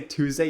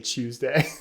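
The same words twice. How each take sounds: First: The word begins with a plain t sound. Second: The word begins with a ch sound. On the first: "You don't say Tuesday" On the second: "you say it like an Australian would"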